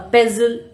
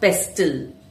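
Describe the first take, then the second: First: The t sound is silent. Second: The t sound is pronounced. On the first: The speaker calls it right. "when T comes in between N or S sounds, it often disappears" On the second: The speaker calls it wrong. "not pestle"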